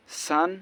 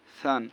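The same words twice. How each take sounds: First: সান with a strong hissing S; sharp sin S. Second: সান with a soft lisped TH for the first sound; soft tha. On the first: Teacher contrasting sin with tha, sharp hissed S. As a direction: hiss the S at the start of সান. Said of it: "আর সিন স এরকম". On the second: Teacher contrasting tha with sin, soft TH. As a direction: start সান gently as "th", not S. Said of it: "সা নরম". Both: Shown as a demonstration.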